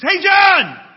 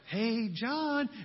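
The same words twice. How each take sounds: First: It is said loudly, like a shout. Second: It is said at a normal, soft volume. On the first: The speaker calls it right. "It's loud" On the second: The speaker calls it wrong. "It's not just like"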